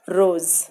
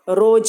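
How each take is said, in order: First: The final consonant is a z sound. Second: The final consonant is a j sound. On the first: The speaker calls it right. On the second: The speaker calls it wrong.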